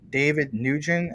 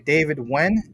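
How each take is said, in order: First: The surname is said like 'new-jent', two syllables. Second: The surname is said like 'win', one syllable. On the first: The speaker calls it wrong. "all the other teachers throughout the day would say David Nugent" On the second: The speaker calls it right. "I would say David Wen"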